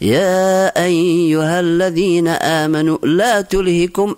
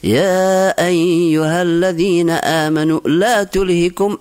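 First: It is said in a sad, mournful tone. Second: The same.

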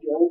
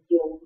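First: The syllable keeps its original, non-level tone. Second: The syllable is said with a high level tone. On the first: "那个油" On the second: "变成油"

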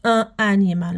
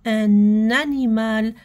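First: The two words are said without a linking n. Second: The n is carried over onto animal. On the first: The speaker calls it wrong. "ما نقراوش ان انيمال" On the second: The speaker calls it right. "حنا راح نديروا لا ليزون"

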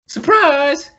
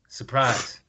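First: It is said with excited, lively emphasis. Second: It is said flatly, without any emotion.

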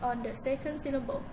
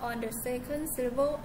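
The two takes are said the same way.

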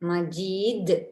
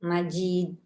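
First: The final consonant is released with a strong bounce. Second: The final consonant is stopped flat without a bounce. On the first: The speaker calls it right. "அவ்வாறு அழுத்தி உச்சரிக்க வேண்டும்" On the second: The speaker calls it wrong. "என்று ஓதினால் அது பிழை"

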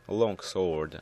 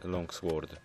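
First: The w sound is silent. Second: The w sound is pronounced. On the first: The speaker calls it right. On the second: The speaker calls it wrong.

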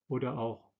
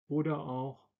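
Both takes have the same delivery.

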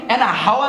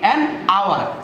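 First: The h sound at the start is pronounced. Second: The h sound at the start is silent. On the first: The speaker calls it wrong. "আমরা কখনোই অ্যান হাওয়ার বলি না" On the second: The speaker calls it right. "বলি অ্যান আওয়ার"

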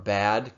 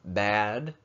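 First: The vowel is plain and short. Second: The vowel is spread out and drawn out. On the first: "bad could become" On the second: "those vowels are splitting, they're being spread out"

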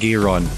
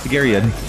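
First: The name is said with two syllables. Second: The name is said with three syllables. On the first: The speaker calls it wrong. "We kept saying Garon" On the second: The speaker calls it right. "Our pronunciation of Garion was terrible"

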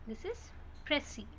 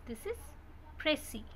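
The two takes are said the same way.

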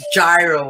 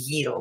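First: The word is said with an American pronunciation. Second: The word is said with a Greek pronunciation. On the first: The speaker calls it wrong. "as the Americans want to call it" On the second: The speaker calls it right. "it's really not gyro, it's a gyro"

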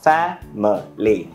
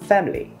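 First: The word is said with three syllables. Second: The word is said with two syllables. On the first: "với 3 âm tiết là family" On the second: "trong văn nói chúng ta hay nghe người ta nói là family"

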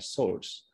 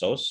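First: The r sound after the vowel is pronounced. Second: The r sound after the vowel is silent. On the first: "Kalau American bunyi R-nya source. Ada R-nya" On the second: "Tapi kalau British source, source. R-nya nggak bunyi"

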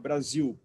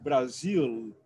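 First: The word ends in a vowel-like sound. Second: The word ends in a clear L sound.

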